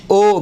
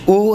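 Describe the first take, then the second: First: "او" said as an open Urdu o; wrong o vowel. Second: "او" said as a pure Arabic oo; correct u vowel. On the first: Teacher shows the vowel Arabic never has, Urdu-style o. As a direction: say "او" as oh, not oo. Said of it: "کبھی بھی نہیں ہوگا". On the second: Teacher repeats the correct Arabic vowel, pure oo. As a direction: say "او" as oo, not oh. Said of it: "او کبھی بھی نہیں ہوگا". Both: Shown as a demonstration.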